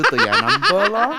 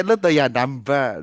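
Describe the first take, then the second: First: Laughing. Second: Said in the usual way. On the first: Real, not acted. Laughs while telling the process.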